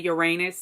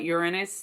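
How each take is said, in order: First: It is stressed so it sounds like 'your anus'. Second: The stress is moved so it avoids that sound. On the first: This is the form people avoid saying. "people don't want to say Uranus" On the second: This is the form people use instead. "so they call it Uranus"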